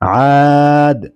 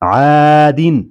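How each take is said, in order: First: The word ends on the bare 'd' sound. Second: The word ends with an 'in' sound. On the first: The reader stops on the word. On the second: The word is read joined to what follows.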